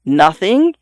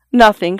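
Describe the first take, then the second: First: "Nothing" echoed with a rising question tune. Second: Said in the usual way. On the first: A narrator's reading. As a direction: lift the end of "Nothing" into a question. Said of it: "he echoed". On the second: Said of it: "she said".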